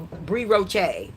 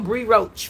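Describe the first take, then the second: First: The name is said with a French accent. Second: The name is said in plain English.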